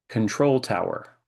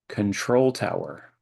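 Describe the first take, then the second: Both takes have the same delivery.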